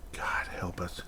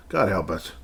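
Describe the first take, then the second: First: Breathy unvoiced whisper of despair. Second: Said in the usual way. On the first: Real, not acted. Muttering to himself about the team, whispered. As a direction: hush it out like a prayer. Despairing aside after offsides rant.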